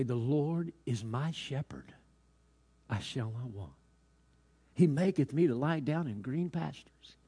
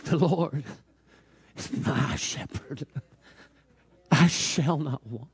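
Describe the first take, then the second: First: Lightly voiced star pupil reciting scripture; trained student recitation. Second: Acted tearful recitation, slow and halting; tearful old janitor. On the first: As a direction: recite it slowly and correctly, with measured pauses. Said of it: "with all of his knowledge and teaching, he began to say". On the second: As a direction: recite it haltingly as if choking back tears. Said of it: "some tears began to fall from his eyes".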